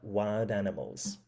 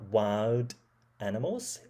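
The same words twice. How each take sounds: First: The syllables flow together with normal stress. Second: The syllables are evenly stressed with pauses between. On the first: The speaker calls it right. "instead of" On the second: The speaker calls it wrong. "you made parts of a word more equal in loudness and length, and you paused between syllables"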